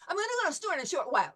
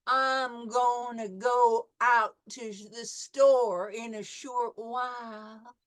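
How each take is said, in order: First: It is said very fast in a New York accent. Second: It is said slowly in a Southern accent.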